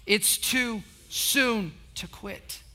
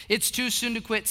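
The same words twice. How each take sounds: First: "too soon to quit" drawn out word by word; slow call to join. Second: Said in the usual way. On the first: Shown as a demonstration. Preacher leading the congregation to say it together, slow and spaced. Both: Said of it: "Say it with me".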